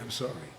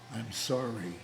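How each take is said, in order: First: The apology sounds offhand and dismissive. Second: The apology sounds heartfelt and sincere. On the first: The speaker does not really regret it. The speaker calls it wrong. "He'd say it like that. No, that's not right" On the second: The speaker truly regrets it. The speaker calls it right. "And you have to mean it"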